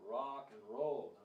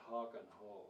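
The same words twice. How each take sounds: First: The first R is a curled-tongue R. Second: The first R sounds like an H. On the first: The speaker calls it right. "You just curl your tongue" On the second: The speaker calls it wrong. "not rock and roll"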